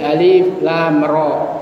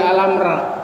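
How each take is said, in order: First: Three separate letter names are said. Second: The letters are blended into short words. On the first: The speaker calls it right. "ingat berlaku bunyi huruf" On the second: The speaker calls it wrong. "jangan dibaca"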